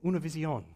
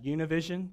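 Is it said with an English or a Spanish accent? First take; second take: Spanish; English. First: It is said with a Spanish accent. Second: It is said with an American English accent.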